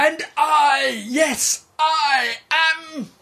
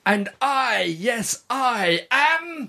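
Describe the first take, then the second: First: Dramatic shout. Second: Slow, drawn-out announcement; redo, lighter proclamation. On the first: Acted. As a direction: announce yourself grandly. Dramatic self-introduction. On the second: Shown as a demonstration. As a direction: say it again, stretched out. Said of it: "Do it again".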